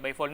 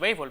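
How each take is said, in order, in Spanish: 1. El acento está en la última sílaba. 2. El acento está en la primera sílaba. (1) "béisbol no" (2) "La tilde, por supuesto, tienen que llevarla. En el caso de béisbol"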